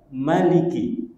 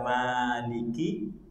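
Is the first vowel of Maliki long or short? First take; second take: short; long. First: The first vowel of Maliki is short. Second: The first vowel of Maliki is long. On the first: It means ruler. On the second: It means owner.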